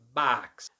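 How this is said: The vowel is flat and long, American style. "becomes A, which is flat and long"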